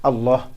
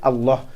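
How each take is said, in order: No difference in how they are said.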